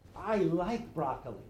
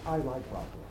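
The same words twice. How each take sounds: First: It sounds passionate and inspired. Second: It sounds calm and matter-of-fact.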